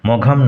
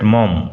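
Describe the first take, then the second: First: The name is said with a g sound. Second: The name is said without a g sound. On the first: The speaker calls it wrong. "অনেকেই ভুল করে মঘাম উচ্চারণ করে" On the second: The speaker calls it right. "কিন্তু উচ্চারণ হবে William Somerset মম"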